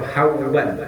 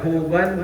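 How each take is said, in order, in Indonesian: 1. Suku kata pertama memiliki diftong au. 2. Suku kata pertama memiliki vokal u biasa. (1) "bi fathil ha dengan fathah ha, sukunnya waw" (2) "Huban bidomil ha"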